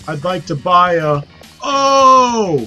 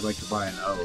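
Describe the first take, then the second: First: The phrase is pronounced in an odd, unnatural way. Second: The phrase is pronounced in the usual, natural way. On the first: It imitates a game character's strange pronunciation. The speaker calls it wrong. "he says it like that" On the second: It is how people ordinarily say it. The speaker calls it right. "like you normally would say it"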